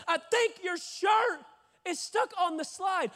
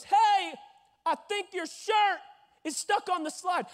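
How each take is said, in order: First: High, slow, shouted repeat. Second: High, raised voice calling across; lifeguard calling out. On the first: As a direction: spell it out slowly for someone not hearing. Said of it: "Wh-, wh-, what?". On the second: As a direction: call it up to someone stuck. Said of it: "he goes". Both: Retold or imitated.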